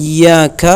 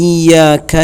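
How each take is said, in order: Both takes have the same delivery.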